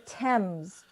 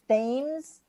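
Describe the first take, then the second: First: The word is not said as it is spelled. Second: The word is said just as it is spelled. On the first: The speaker calls it right. "but it's really the Thames" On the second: The speaker calls it wrong. "a lot of people pronounce it Thames"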